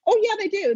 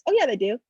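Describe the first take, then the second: First: Higher and louder, insisting; emphatic retort. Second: Laughing while insisting; laughing retort. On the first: Author firmly insisting to the publisher, emphatic. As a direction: push back hard on it. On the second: Author laughing off the publisher's doubt. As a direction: say it through a laugh. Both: Real, not acted.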